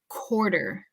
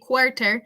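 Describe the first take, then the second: First: The middle consonant is a soft d sound. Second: The middle consonant is a crisp t sound. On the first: The speaker calls it right. "but rather quarter ... if it were a C O R D E R" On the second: The speaker calls it wrong. "We don't have to say quarter"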